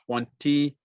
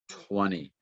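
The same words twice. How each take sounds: First: The T after the N is pronounced. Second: The T after the N is dropped.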